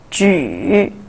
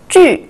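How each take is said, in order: First: The pitch dips low, then rises. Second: The pitch falls sharply from high.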